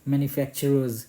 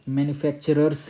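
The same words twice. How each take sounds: First: The word ends with a buzzing z sound. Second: The word ends with a hissing s sound. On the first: The speaker calls it right. "Last में ज sound आना चाहिए" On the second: The speaker calls it wrong. "मैन्युफैक्चरर्स नहीं पढ़िएगा, स नहीं आना चाहिए"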